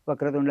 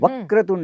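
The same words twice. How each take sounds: First: The word is said flat, with no stress. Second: The syllable before the consonant cluster is stressed. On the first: The speaker calls it wrong. "नाहीतर वक्रतुंड महाकाय असं म्हणतात" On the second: The speaker calls it right. "Vakratunda असं म्हणायचं"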